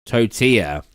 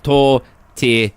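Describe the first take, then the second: First: "Tortilla" as toe-TEE-ya, silent double L; corrected pronunciation. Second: "tortillas" slowly, tor-till-as, L sounded; spelling pronunciation. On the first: Streamer fixing their own slip, corrected pronunciation. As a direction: say "Tortilla" with a y-glide, no L. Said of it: "That's it". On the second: Streamer showing their misreading of a word, spelling pronunciation. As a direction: sound out "tortillas" syllable by syllable as written. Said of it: "read the word the way it's spelled". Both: Shown as a demonstration.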